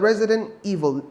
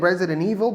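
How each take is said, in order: First: The phrase is said slowly, with every sound clear. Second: The phrase is said quickly, with sounds swallowed. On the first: "لو عايز تبطئ فيها شويه" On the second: "لو عايز تاكلها يعني"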